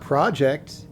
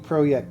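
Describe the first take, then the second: First: The word is said with an English pronunciation. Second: The word is said with a Polish pronunciation. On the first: The speaker calls it wrong. "It's not project" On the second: The speaker calls it right. "That's how they pronounce it"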